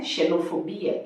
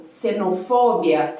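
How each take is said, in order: First: Xenofobia with a sh, shenofobia, softly; Portuguese X sound. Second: Xenofobia with an S, senofobia; S sound. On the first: Teacher demos the wrong Portuguese shenofobia, softly. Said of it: "isso não". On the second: Teacher shows the Spanish x in xenofobia, said as S. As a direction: start xenofobia with a clear S sound. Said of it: "pode ter som de S". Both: Shown as a demonstration.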